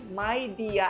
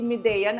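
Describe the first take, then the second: First: The first syllable sounds like 'my'. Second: The first syllable does not sound like 'my'. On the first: The speaker calls it right. "Yung pronunciation pala nitong Midea ay Midea" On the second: The speaker calls it wrong. "at hindi Medea na alam nating lahat"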